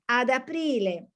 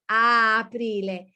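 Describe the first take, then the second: First: A d sound links the two vowels. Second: Two vowels meet with no consonant between them. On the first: "If you add the D, ... it's easier to pronounce" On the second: "it's difficult to say a aprile"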